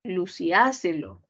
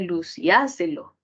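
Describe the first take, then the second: First: The stress falls on the a syllable. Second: The same.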